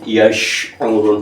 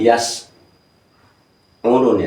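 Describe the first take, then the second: First: The second consonant is an sh sound. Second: The second consonant is a plain s sound. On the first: The speaker calls it right. "yash'urun, bukan yas urun" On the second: The speaker calls it wrong. "bukan yas urun ... sudah merusak huruf dua"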